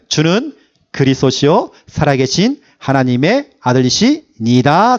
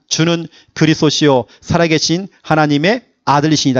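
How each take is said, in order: First: It is said more slowly, about five seconds. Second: It is said at normal speed, about four seconds.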